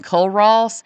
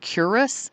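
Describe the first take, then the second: First: The name is said with an L sound. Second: The name is said without an L sound. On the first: This is how the speaker herself said it. "that I kept calling Culross" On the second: This is how a local guide said it. "he always pronounced it Curus"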